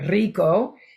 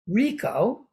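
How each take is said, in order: First: It is pronounced with Spanish sounds. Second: It is pronounced with English sounds.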